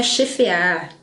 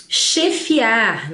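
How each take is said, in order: First: "chefear" as che-FE-ar; wrong pronunciation. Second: "Chefiar" as che-FI-ar; correct pronunciation. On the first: Teacher shows the form to avoid, wrong pronunciation. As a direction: put an E for the I in "chefear". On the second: Teacher models the word with I, correct pronunciation. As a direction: sound a clear I in "Chefiar". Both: Shown as a demonstration. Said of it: "Não é chefear".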